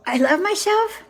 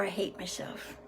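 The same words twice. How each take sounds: First: Pitched up, with a lift; higher, upbeat self-praise; self-loving human. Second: Hushed, low near-whisper; low, soft self-reproach; self-hating human. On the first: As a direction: declare it proudly in a higher voice. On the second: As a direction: drop right down as if ashamed. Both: Acted. Human's two opposite self-judgments read out.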